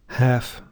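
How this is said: It is said in an American accent. "I'll read those with American pronunciation"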